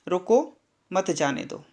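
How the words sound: There is a pause after रोको.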